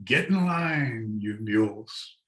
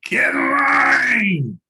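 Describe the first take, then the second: First: Hint of the packer's call, half-voiced; mild imitated holler. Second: A long, slow, very high and loud shout at the pack mules; imitated drawn-out shout. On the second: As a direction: bellow it across the trail like a muleteer. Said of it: "I heard him say".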